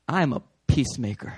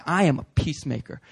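First: Calm declaration. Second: Said in the usual way. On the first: Shown as a demonstration. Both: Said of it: "I just need to say".

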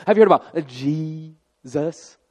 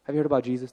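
First: Loud lead-in, then "Jesus" hugely stretched over two long syllables; mock-reverent, long-held "Jesus"; drawn-out Jesus. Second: Said in the usual way. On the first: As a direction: stretch "Jesus" out like an overzealous new believer. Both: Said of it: "They never say Jesus".

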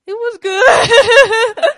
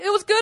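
First: Loud, high wail drawn out slowly; hammed-up tearful howl breaking into laughter; mock crying. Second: Said in the usual way. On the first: Woman replays telling roommate about the date, mock crying. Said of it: "I'm, I'm crying".

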